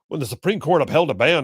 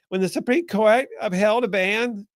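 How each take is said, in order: First: It is read in the speaker's ordinary voice. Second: It is read in a changed, put-on voice.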